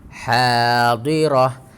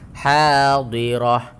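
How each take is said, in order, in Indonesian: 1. Kata ini berakhir dengan bunyi 'ah' yang pendek. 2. Kata ini berakhir dengan bunyi 'ah' yang pendek.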